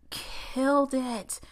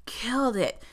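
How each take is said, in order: First: Slow, drawn-out stress on "Killed"; savoring "Killed it" word by word; emphatic praise. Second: Said in the usual way. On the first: Shown as a demonstration. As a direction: lean hard into "Killed it", slowly. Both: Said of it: "The guy who played Graf killed it".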